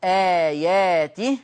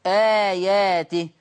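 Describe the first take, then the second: First: Very slow آياته, long vowel drawn out, ending on a rise; recited with badal. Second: Very slow, louder آياته with the first vowel held long; recited with long badal. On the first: Teacher repeats badal example, slow recitation. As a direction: hold the first vowel of آياته. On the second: Teacher demonstrates full-length badal on آياته. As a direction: chant آياته, holding the long a. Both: Shown as a demonstration. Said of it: "مد البدل".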